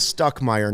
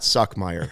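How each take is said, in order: First: The name has a t after the s. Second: The name has no t after the s. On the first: The speaker calls it right. "it is Stuckmeyer" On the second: The speaker calls it wrong. "not Suckmeyer"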